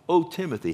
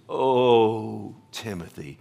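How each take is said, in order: First: It is said lightly, like a casual greeting. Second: It is said as an anguished, heartfelt cry. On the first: It is a friendly everyday hello. The speaker calls it wrong. "That's not like, O Timothy, how you doing, man?" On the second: It is an urgent plea from the heart. The speaker calls it right. "It is a cry from the heart of Paul"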